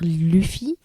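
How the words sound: The name is pronounced the French way. "en français, ça doit se dire Luffy"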